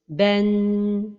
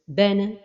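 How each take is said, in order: First: The final n is held for a long time. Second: The final sound ends with an echoing bounce. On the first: "c'est de donner beaucoup de temps vers la fin de prononciation comme ceci" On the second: "Une autre erreur est de donner al-qalqala vers la fin de prononciation"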